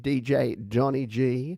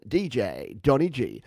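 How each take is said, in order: First: It is read out in a normal voice. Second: It is said in a put-on DJ voice.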